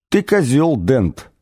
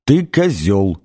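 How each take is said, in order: First: Matter-of-fact insult, pitched up then dropping on the name; simply stated insult. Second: Deliberate repeated insult. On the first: Alien greeting Arthur with an insult, simply stated. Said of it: "промолвила она просто". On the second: Alien repeating its verdict to Arthur, deliberate falling insult. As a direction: insult restated with a falling close. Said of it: "повторил инопланетянин". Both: A narrator's reading.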